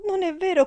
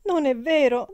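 First: Even higher, loud falling "vero"; crying out louder. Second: High, loud denial; crying out. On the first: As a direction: push the denial up in pitch. (grido ancora più acuto) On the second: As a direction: shout it through tears. (grido disperato) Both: A narrator's reading. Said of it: "gridò la ragazza".

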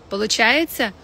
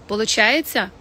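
No difference in how they are said.

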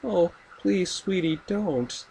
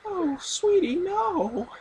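First: High, sweet mock mother; imitating a sugary mom pleading; sweetly insistent. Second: Very high, sugary mom voice; sweetly insistent. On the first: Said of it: "and she's like". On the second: Retold or imitated. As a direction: squeal it like a doting mother. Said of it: "imitating Norma, the mother".

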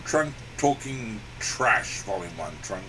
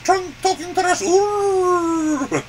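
First: Much lower, slow announcer; deep slow title read. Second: Higher, louder puppet elephant voice. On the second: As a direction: say the title as the elephant. Title said in elephant voice. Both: Acted.

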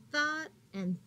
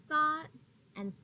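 The two takes are said the same way.

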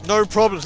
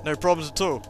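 First: Higher, louder insisting; forced cheery insistence; louder no problems. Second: Said in the usual way. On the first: Real, not acted. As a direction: punch problems up loud.

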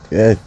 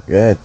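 No difference in how they are said.

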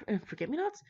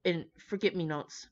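First: Higher, sighing, rising doubt on forget-me-nots; incredulous reread. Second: Said in the usual way. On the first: Real, not acted. Reader doubting the bouquet flowers, sighing and rising. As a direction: say "forget-me-nots" as if you can't believe it.

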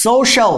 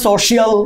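First: "সোশ্যাল" in two syllables, "so-shal"; correct pronunciation. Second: "সোশ্যাল" with an extra syllable, "so-shi-al"; three-syllable "সোশ্যাল"; common mispronunciation. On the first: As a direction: glide straight from "so" into "shal" in "সোশ্যাল". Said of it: "হবে না কিন্তু সোশ্যাল". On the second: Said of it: "অনেকে এটা উচ্চারণ করে". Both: Shown as a demonstration.

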